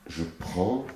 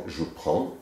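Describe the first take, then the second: The two takes are said the same way.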